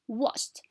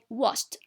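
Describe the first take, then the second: First: The ending is pronounced as a t sound. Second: The same.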